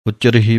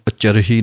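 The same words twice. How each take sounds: First: ਉਚਰਹੀ with the vowels said fully and clearly; correct pronunciation. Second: ਉਚਰਹੀ said quickly and clipped, the mistaken way; the wrong ਉਚਰਹੀ, rushed; wrong pronunciation. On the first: Teacher gives students the right ਉਚਰਹੀ. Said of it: "ਇਹਨੂੰ ਉਚਰਹੀ ਨਹੀਂ ਕਹਿਣਾ ਹੈ". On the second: Teacher quotes the mistake for students. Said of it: "ਨਹੀਂ ਕਹਿਣਾ ਹੈ". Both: Shown as a demonstration.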